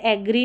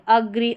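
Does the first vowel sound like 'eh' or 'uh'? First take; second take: eh; uh. First: The first vowel sounds like 'eh'. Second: The first vowel sounds like 'uh'. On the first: The speaker calls it wrong. "इसको एग्री नहीं पढ़ेंगे" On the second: The speaker calls it right. "ए का उच्चारण अ है"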